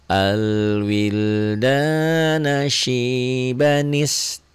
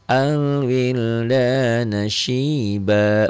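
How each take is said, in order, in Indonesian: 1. Kata terakhir langsung menyambung ke kata berikutnya. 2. Suara berhenti setelah kata terakhir. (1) "kalau disambung di sini" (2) "dihentikan, tidak disambung, diwakof"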